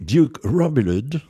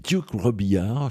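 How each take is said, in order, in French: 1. Le nom se prononce avec un accent américain. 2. Le nom se prononce avec un accent français. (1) "comme je l'ai entendu, outre-Atlantique" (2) "je trouve que ça sonne bien"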